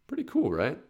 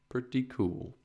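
First: "Pretty cool, right?" lifted higher, cool rising; hyped ask for agreement; bright rising question. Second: "Pretty cool." softer, falling to close; hushed satisfied echo. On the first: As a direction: pitch it up inviting agreement. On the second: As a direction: quietly agree with yourself. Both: Real, not acted.

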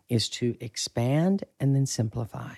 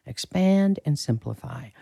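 First: Said in the usual way. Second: Expand lifted high, simplify falls; emphatic restated motto; stress on expand. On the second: Shown as a demonstration. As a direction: hit Expand higher, let simplify settle.

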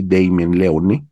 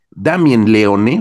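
First: "Damien Leone" said the English way, DAY-mien Le-OHN; "Damien Leone" in English, final e dropped; English pronunciation. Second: "Damien Leone" said the Spanish way, DAM-yen Le-O-ne; "Damien Leone" with Spanish vowels, all syllables sounded; Spanish pronunciation. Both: Shown as a demonstration. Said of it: "vamos a decirlo así".

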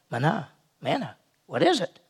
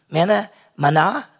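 First: "Manna, manna" said softer, puzzled, as a question; puzzled wondering. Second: Said in the usual way. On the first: Retold or imitated. Israelites find food on the ground, puzzled. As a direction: wonder aloud at the strange food. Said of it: "and they went". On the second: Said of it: "the Hebrew word manna means".

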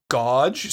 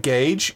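First: Gauge with an AW vowel, "gawj". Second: Gauge with an AY vowel, "gayj". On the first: Podcaster showing what annoys the wife, gauge said "gawj". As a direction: say gauge to rhyme with "lodge". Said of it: "I say gauge sometimes instead of gauge". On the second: Podcaster giving the standard word for contrast, gauge said "gayj". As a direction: say gauge to rhyme with "page". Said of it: "'cause that's the way I read it". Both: Shown as a demonstration.

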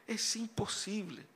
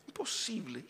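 First: Said in the usual way. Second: Whispered. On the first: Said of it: "repeated imposible, spoken". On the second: Real, not acted. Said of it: "repeated imposible, whispered".

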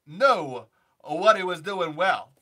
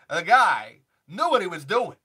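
First: Walken impression, slower. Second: Walken impression. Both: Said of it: "Christopher Walken".

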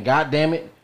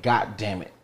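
First: "God" clipped but meant as a D. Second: "God" said "got", T at the end. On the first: Explaining what people think they say, God with a D. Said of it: "they think they're saying". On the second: Explaining what people really say, God with a T. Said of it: "they're saying". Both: Shown as a demonstration.

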